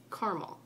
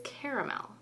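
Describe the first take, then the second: First: "caramel" said "car-mel", two syllables; "caramel" with the middle a dropped. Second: "caramel" said "care-a-mel", three syllables; "caramel" with a clear middle a. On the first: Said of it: "take out the extra A". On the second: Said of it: "as it is spelled here". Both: Shown as a demonstration.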